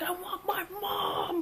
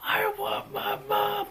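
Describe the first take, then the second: First: Put-on high, slow, sobbing whine of a little kid; high drawn-out childish sob; mock crying child. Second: High, slow, sobbing cry, pushed louder; high drawn-out childish sob, building louder; louder mock crying child. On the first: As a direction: wail for mom like a scared seven-year-old. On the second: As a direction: wail it again, louder and more desperate. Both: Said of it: "like, crying".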